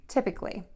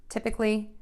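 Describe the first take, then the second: The two takes are said the same way.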